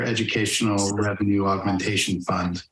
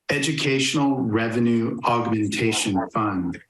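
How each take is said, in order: First: It is said at normal speed. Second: It is said more slowly.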